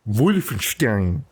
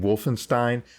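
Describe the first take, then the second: First: It starts with a V sound, German-style. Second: It starts with a W sound, English-style. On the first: "It's more like a V sound, which I think is correct for German" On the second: "instead of just saying Wolfenstein"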